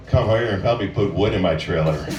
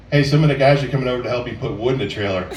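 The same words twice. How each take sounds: First: Much lower, suggestive "put wood in my trailer"; low come-on voice; sexy tone. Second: Said in the usual way. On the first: Shown as a demonstration. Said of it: "make it sound sexy by the tone of your voice". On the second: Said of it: "normal things you can say".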